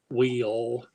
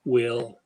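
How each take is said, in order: First: Will drawled in a Texan accent, stretched. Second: Said in the usual way. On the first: Shown as a demonstration. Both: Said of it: "So you can talk Texan".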